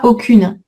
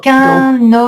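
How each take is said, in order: First: The vowel is oral, without nasalization. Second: The vowel is nasal, followed by a linking n. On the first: The speaker calls it wrong. "on ne dit pas aucune" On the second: The speaker calls it right. "On garde la nasale avec la liaison"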